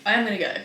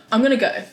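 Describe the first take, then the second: First: "am" pressed firmly, spelled out in full; stress on am. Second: Said in the usual way. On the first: Shown as a demonstration. Talking herself into the run, stress on "am". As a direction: lean hard on "am" as in really.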